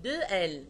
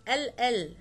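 First: "دو ال" as French "two" plus the letter name; double-letter spelling. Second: "ال ال" as the letter name repeated; letter named twice. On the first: Teacher showing pupils how to spell doubles, number then letter. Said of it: "نو، اقول". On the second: Teacher showing pupils how not to spell, letter name repeated. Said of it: "ما نقولش الحرف". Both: Shown as a demonstration.

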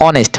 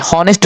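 First: "অনেস্ট" with no h at the start; silent H. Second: "হনেস্ট" with the h voiced in front; wrong "হনেস্ট", breath of h before the o; sounded H. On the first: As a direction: say "অনেস্ট" from the vowel, H unspoken. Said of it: "এইচ এর উচ্চারণ হয় নাই". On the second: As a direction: say "হনেস্ট" with an audible H. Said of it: "যেমন হনেস্ট বলি নাই". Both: Shown as a demonstration.

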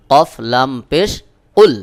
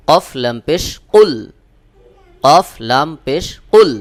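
First: Said in the usual way. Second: কুল with a hard, pressed ক, a bit louder; firm qaf. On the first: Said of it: "যেমন". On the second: Shown as a demonstration. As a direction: push the qaf sound hard from the throat in কুল. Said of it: "কফ এর উচ্চারণের মাখরাজে যে একটু চাপ দিয়ে আওয়াজকে শক্ত করে". (কফ শক্ত করে চাপ দিয়ে কুল উচ্চারণ)

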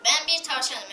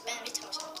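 First: Said in the usual way. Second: Squeaky little squirrel voice; chipmunk voice. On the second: Pretend. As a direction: talk like a tiny chipmunk. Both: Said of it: "O sincap sesi".

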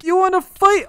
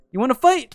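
First: High, loud challenge; escalated taunt. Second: Playful challenge. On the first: Gamer challenging an opponent to fight, escalated taunt. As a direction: throw the challenge out much higher and louder. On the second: Challenges an opponent in game. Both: Real, not acted.

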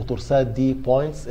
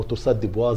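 First: Said in the usual way. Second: "بوا" as in French, final consonants silent; French-style pronunciation. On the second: Shown as a demonstration. Lecturer shows students how some people pronounce it, "بوا" French-style with silent ending. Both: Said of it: "زي ما بعض الناس بينطقوها".

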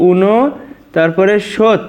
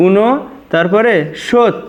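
The two takes are said the same way.

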